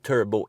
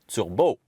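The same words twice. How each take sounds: First: The word is said with an English pronunciation. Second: The word is said with a French pronunciation.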